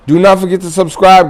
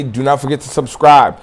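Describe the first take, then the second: First: NOT punched, higher and louder; higher, louder repeat that hits "not"; stress on NOT. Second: Said in the usual way. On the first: Shown as a demonstration.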